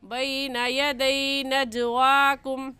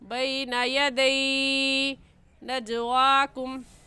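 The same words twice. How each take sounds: First: The vowel in yadai is soft and short. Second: The vowel in yadai is stretched long. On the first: The speaker calls it right. "सही है" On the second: The speaker calls it wrong. "गलत है ... यदई को खींच कर पढ़ना दुरुस्त नहीं है"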